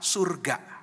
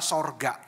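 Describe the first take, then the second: First: The first vowel sounds like 'u'. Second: The first vowel sounds like 'o'. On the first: The speaker calls it right. "Yang baku itu kalau kita uh, memakai bahasa Indonesia yang baik dan benar adalah surga" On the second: The speaker calls it wrong. "rupanya orang Kristen salah dalam melafalkan kata surga, ya, tertulis dan seringkali dibaca sorga"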